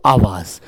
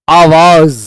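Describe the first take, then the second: First: आवाज said with a clear z sound at the end; nukta z sound. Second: Said in the usual way. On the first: Shown as a demonstration. Teacher shows the class the nukta z in आवाज. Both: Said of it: "कहते हैं ना आवाज नीचे".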